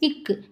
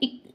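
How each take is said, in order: First: It is pressed hard with a trailing vowel. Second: It is cut very short without a vowel. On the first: The speaker calls it wrong. "அப்படியே அழுத்தி படிச்சிருப்போம்" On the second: The speaker calls it right. "Second விட நம்ம கொஞ்சம் கம்மியா படிக்கணும்"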